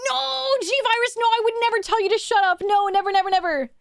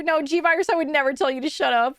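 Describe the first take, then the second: First: Mock-innocent. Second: Said in the usual way. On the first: Streamer teasing a chatter, mock-innocent high sweet denial.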